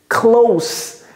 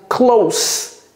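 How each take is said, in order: No difference in how they are said.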